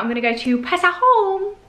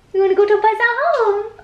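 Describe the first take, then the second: First: Said in the usual way. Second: Pet voice. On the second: Real, not acted. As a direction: coo "We wanna go to Pesa Home" up high to the puppy. Cooing the plan to the dog.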